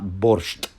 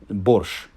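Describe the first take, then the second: First: The word ends in a sht sound with t. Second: The word ends in a shch sound without t. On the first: The speaker calls it wrong. "not borscht" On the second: The speaker calls it right. "So the word in Ukrainian is borscht"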